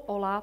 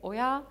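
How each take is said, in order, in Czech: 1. Prostřední souhláska je zvuk L. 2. Prostřední souhláska je zvuk Y. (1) "To slovo Ola pochází ze španělštiny" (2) "ta správná výslovnost je Oja"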